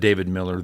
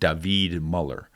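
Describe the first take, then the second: First: The surname has the vowel of 'mill'. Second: The surname has a rounded 'u' vowel. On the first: This is how the speaker's own community says it. "we pronounce it David Miller" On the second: This is how people in the man's own country say it. "They would pronounce it David Muller"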